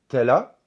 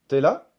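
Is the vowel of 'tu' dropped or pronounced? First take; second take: dropped; dropped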